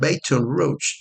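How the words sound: It is said with an American English accent. This is how English speakers say it. The speaker calls it wrong. "Los gringos le dicen Baton Rouge"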